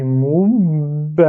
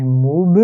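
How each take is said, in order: First: "moub" slowly, b held closed into "ba"; "moub" as joined "moubba"; unreleased doubled b. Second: "moub" with lips reopened after the b; "moub" ending on an audible released b. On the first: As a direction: keep the lips shut on the b of "moub", then open on "ba". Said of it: "je le fais pas parce que". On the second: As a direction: let the b of "moub" pop out as "mou-be". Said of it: "j'ai réouvert ma bouche". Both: Shown as a demonstration.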